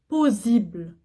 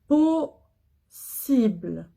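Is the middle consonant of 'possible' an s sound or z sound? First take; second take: z sound; s sound. First: The middle consonant is a buzzing z sound. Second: The middle consonant is a hissing s sound. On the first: The speaker calls it wrong. "Je dis pas possible. Non" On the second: The speaker calls it right. "Double S, je prononce ce"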